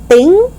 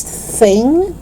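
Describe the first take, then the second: First: "thing" as "ting"; hard T opening "thing". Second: Tongue out to start "thing"; TH sound. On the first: Teacher showing learners the mistake, "thing" with T. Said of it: "It's not thing". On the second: Teacher correcting learners, "thing" with clear TH. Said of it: "It's thing". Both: Shown as a demonstration.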